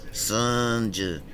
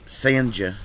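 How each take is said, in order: First: Sanja as a drawn-out "SUN-juh"; Sanja, first syllable like "sun"; name variant. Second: SANJA with a long "ay-uh" first vowel; Sanja, first syllable stretched like "say"; misspelt name. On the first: Shown as a demonstration. Settling on another version of name. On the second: Retold or imitated. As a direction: read Sanja as "SAY-un-juh". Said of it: "she called me Sanja".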